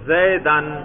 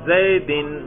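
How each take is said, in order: First: The word ends in the sound 'an'. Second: The word ends in the sound 'in'. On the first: The word is in the accusative case. "میں نے زبر پڑھا اس پر" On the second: The word is in the genitive case. "میں نے زیر پڑھا اس پر"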